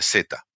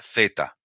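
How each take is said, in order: First: The Z is said as in Argentina. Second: The Z is said as in central Spain. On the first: "En Argentina, la S se pronuncia S, la Z se pronuncia Z" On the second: "en España, por lo menos en España eh, central, eh, la Z se pronuncia Z"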